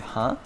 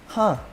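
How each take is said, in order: First: It sounds like a puzzled question. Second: It sounds like an interested, thoughtful reaction. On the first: The listener missed what was said and wants it repeated. "you didn't understand what someone just said" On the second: The listener finds the fact interesting. "Like someone tells you an interesting fact"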